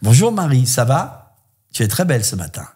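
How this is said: It sounds a little interested.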